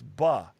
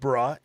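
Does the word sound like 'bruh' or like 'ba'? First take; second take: ba; bruh. First: It is said with a 'ba' sound. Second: It is said with a 'bruh' sound. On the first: The speaker calls it right. "it's ba" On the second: The speaker calls it wrong. "It's not bruh"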